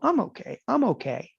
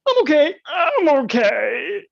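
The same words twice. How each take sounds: First: It is said in a calm, steady tone. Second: It is said in a strained, nervous tone. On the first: The loss still feels manageable. "this is where you go" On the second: The worry is starting to set in. "the voice, the tone starts to change"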